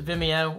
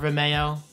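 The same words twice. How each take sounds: First: The middle syllable does not sound like 'mayo'. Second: The middle syllable sounds like 'mayo'.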